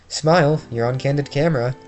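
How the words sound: The put-on character voice is a loose imitation. The speaker calls it wrong. "Now that wasn't Phoenix's voice"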